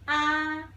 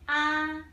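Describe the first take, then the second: First: The pitch stays high and level. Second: The same.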